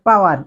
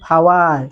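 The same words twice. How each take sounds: First: The p is plain, without a puff of air. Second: The p has a strong puff of air. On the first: The speaker calls it wrong. "It's not power" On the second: The speaker calls it right. "p এর sound আপনাকে ফ করতে হবে"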